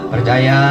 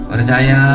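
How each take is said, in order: Both takes have the same delivery.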